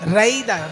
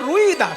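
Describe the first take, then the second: First: The first syllable has an 'ai' vowel sound. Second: The first syllable has an 'ui' vowel sound. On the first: This is the name's actual form. The speaker calls it right. "কিন্তু আসলে রুই নয়, রাই Das" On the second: This is how Bengali speakers say the name. The speaker calls it wrong. "বাঙালিদের উচ্চারণে হয়ে গেছে রুই দাস"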